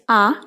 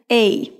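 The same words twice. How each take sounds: First: The article is said with a Portuguese-style vowel. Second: The article is said with an English-style vowel. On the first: "como nós falamos em português" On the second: "como no fonema em inglês"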